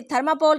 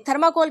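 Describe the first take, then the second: First: थर्माकोल said with a p, as "tharmapol"; variant pronunciation. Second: थर्माकोल said with a k, as "tharmakol"; alternative pronunciation. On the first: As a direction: swap the k in थर्माकोल for a p. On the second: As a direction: keep a clear k in थर्माकोल. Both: Shown as a demonstration. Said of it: "आप इसे क्या कहते हैं".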